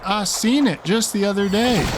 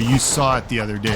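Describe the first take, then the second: First: Lightly mock a Southern Texas accent, pitched up. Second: Said in the usual way. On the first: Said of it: "violently abuse the English language by saying".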